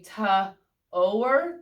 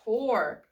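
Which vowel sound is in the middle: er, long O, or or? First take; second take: long O; or. First: The vowel is a long O sound. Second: The vowel is the or sound. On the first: The speaker calls it wrong. "O blank E, if it's a silent E, can say long O" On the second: The speaker calls it right. "it is the O R E that makes that or sound"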